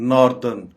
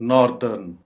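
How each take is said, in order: Both takes have the same delivery.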